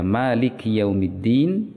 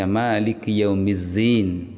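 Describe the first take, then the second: First: The consonant in yaumiddin is a d sound. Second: The consonant in yaumiddin is a z sound. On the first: The speaker calls it right. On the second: The speaker calls it wrong.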